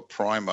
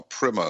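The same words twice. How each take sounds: First: Primer with a long i, PRY-mer; British pronunciation. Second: Primer with a short i, PRIM-er; American pronunciation. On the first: Host naming the kind of book, primer said as PRY-mer. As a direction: say primer to rhyme with timer. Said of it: "as they say in America". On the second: Host offering the American version, primer said as PRIMM-er. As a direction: say primer to rhyme with trimmer. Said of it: "I think, as they say in America". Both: Shown as a demonstration.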